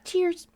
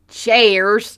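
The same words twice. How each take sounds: First: It is said in a Midwestern American accent. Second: It is said in a Southern American accent. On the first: "we sound like this. ... Fucking Midwestern" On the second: "Maybe with a southern accent"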